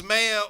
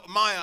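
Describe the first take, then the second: First: "Mayor" said as MAY-er; MAY-er pronunciation. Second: "Mayer" said as MY-er; MY-er pronunciation. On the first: Contrasting two ways to say the surname, "Mayor" as MAY-er. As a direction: give "Mayor" an AY vowel, like May. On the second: Contrasting two ways to say the surname, "Mayer" as MY-er. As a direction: give "Mayer" the German EYE vowel. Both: Shown as a demonstration. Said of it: "those were the two pronunciations".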